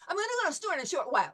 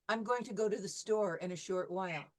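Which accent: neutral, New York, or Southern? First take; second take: New York; neutral. First: It is said very fast in a New York accent. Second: It is said in the speaker's neutral accent.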